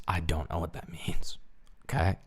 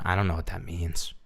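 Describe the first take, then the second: First: Soft breathy whisper, no voice. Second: Said in the usual way. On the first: Shown as a demonstration. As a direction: whisper it like a secret. Same line repeated as whisper.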